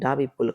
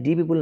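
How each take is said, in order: First: 'The' is said with a short 'uh' vowel. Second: 'The' is said with a long 'ee' vowel. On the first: The speaker calls it right. "কাৰণ পিটো হল কনচনেণ্ট" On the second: The speaker calls it wrong. "তেতিয়া আমি দি people নপঢ়ো"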